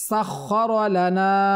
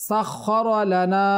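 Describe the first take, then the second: Both takes have the same delivery.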